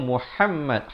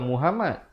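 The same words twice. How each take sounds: First: The middle 'm' is held and doubled. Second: The middle 'm' is short and single. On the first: The speaker calls it right. "Sepatutnya Muhammad. Ha pedas dan mim itu bersabdu" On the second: The speaker calls it wrong. "Bukan Muhammad"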